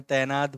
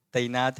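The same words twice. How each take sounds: First: तैनात with one open vowel, "tai-naat" rhyming with "air"; no glide in the first syllable of तैनात; Hindi-Urdu pronunciation. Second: तैनात as "ta-i-naat", with an a-i glide; Marathi pronunciation. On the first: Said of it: "Hindi Urdu में तैनात बोल सकते हो". (तैनात का हिंदी-उर्दू उच्चारण) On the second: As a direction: sound both a and i in तैनात. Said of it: "लेकिन ये तैनात है किसमें?". (तैनात का मराठी उच्चारण) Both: Shown as a demonstration.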